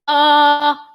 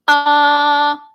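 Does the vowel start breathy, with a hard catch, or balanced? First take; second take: hard catch; hard catch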